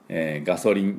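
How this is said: It is said with Japanese katakana-style sounds. The speaker calls it wrong. "ガソリンでは通じないですね"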